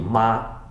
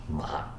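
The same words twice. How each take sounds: First: The pitch stays high and level. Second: The pitch dips low then rises.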